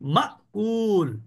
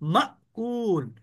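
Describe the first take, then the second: No difference in how they are said.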